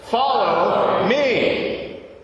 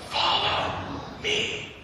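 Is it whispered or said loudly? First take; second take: loudly; whispered. First: It is said loudly. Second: It is whispered softly.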